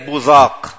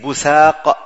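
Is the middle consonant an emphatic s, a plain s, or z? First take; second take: z; plain s. First: The middle consonant is a z. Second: The middle consonant is a plain s. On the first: "وبالزاي" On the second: "وبالسين"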